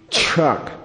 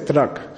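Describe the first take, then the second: First: The word begins with a ch sound. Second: The word begins with a plain t sound. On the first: "We say truck. It should be spelled C-H-R-U-K" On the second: "We don't say truck"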